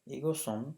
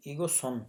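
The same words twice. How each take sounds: First: ईगो सुन repeated slowly and clearly; ईगो सुन once more, stress on ईगो; second clear take of ईगो सुन; Korean word repeated. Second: ईगो सुन with stress on ईगो; Korean word said out. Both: Shown as a demonstration. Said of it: "जैसे".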